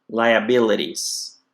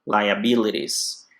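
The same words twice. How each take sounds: No difference in how they are said.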